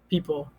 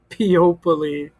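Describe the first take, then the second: First: The middle O is silent. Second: Every letter, including the O, is pronounced. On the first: This is the normal way to say the word. "We don't say the O" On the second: This is a spelling aid for remembering the letters. "Say it funny. ... read every letter and the way that it looks"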